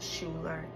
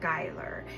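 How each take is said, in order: First: The name begins with a 'shoo' sound. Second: The name begins with a 'sky' sound. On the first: The speaker calls it wrong. "It's not Schuler" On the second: The speaker calls it right. "it's Skyler"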